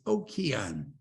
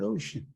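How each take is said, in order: First: The middle consonant is a k sound. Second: The middle consonant is an sh sound. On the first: The speaker calls it right. "It's okean" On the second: The speaker calls it wrong. "It's not ocean"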